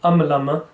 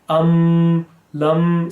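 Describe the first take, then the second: First: The m is released with a small bounce. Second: The m is held with lips firmly closed. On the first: The speaker calls it wrong. "it can sound as though you're doing kalkala" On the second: The speaker calls it right. "put force on both the memes uh, to keep your mouth closed"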